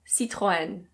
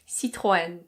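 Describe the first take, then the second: First: It is said with a French pronunciation. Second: It is said with a French pronunciation.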